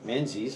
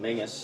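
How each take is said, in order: First: The name is said in a non-Scottish way. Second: The name is said the Scottish way.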